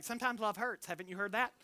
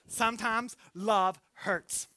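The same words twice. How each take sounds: First: Softer, knowing tease of "Sometimes love hurts"; soft teasing. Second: "Sometimes love hurts" drawn out slowly, weight on "love"; slow emphasis. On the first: Retold or imitated. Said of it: "I say, like". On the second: Shown as a demonstration. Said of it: "repeated as sermon point".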